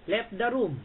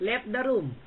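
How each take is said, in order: First: Said in the usual way. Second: Left the room drawn out slowly through a laugh; mocking Left the room with a chuckle. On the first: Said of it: "repeats it laughing". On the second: Real, not acted.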